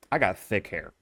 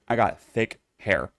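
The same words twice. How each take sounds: First: Said in the usual way. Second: I got thick hair, said slowly and deliberately; slow emphatic repeat. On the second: Shown as a demonstration. Insisting to viewers, slow and emphatic.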